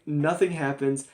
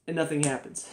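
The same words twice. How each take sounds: First: "nothing" drawn out and hit harder, slower pace; slow down and lean on "nothing"; stress on nothing. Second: Said in the usual way. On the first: Real, not acted. Disbelief at the dull scene, stressing "nothing" slowly. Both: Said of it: "Like, nothing happens".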